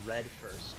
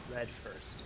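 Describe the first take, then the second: No difference in how they are said.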